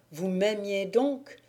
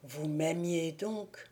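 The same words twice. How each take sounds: First: Said in the usual way. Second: Awed murmur. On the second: A narrator's reading. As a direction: breathe it in disbelief. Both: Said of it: "s'écria Thibault".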